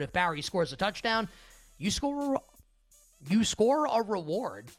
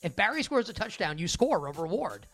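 First: It is spoken at a normal, unhurried pace. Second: It is spoken quickly, as a tongue twister.

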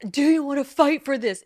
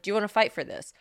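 First: It is asked in a dramatic, emotional way. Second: It is asked in a plain, calm way.

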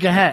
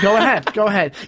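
First: The two words are run together and contracted. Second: The two words are said separately and fully. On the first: This is how the speaker's own group says it. "we say, go ahead" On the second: This is how the other group says it. "They don't do that. They say, go ahead"

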